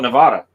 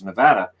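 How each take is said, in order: First: It is said with a Canadian pronunciation. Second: It is said with an American pronunciation. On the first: "But in Canada, we call it Nevada" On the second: "Americans would go nuts because they all refer to it as Nevada"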